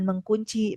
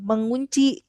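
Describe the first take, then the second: First: A k sound follows the ng sound. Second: No k sound follows the ng sound. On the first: The speaker calls it wrong. "bukan mengkunci" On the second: The speaker calls it right. "K-nya tapi nggak dibaca"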